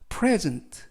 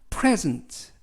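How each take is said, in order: Both takes have the same delivery.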